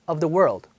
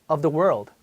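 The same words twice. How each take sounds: The two takes are said the same way.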